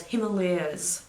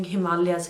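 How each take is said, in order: First: Himalayas as him-uh-LAY-uhz; others' pronunciation. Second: Himalayas as hi-MAHL-yas; Indian pronunciation. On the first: Retold or imitated. Vlogger quoting people at work, Himalayas slowly as him-uh-LAY-uhz. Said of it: "people were calling Himalayas". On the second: Shown as a demonstration. Vlogger giving her own Indian version, Himalayas as hi-MAHL-yas. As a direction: stress the long MAH in Himalayas, hi-MAHL-yas. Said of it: "That's how it's said".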